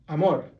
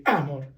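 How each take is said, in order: First: Amor with the stress on "mor"; stress on last syllable. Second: Amor wrongly stressed on its opening "a", AH-mor; stress on first syllable. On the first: Teacher models the amor rule, amor stressed on "mor". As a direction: land firmly on the final syllable of amor. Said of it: "So you stress the last one". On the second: Teacher shows amor backwards, stressed on the first "a". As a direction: punch the "a" of amor, let "mor" fall. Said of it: "you stress the A first". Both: Shown as a demonstration.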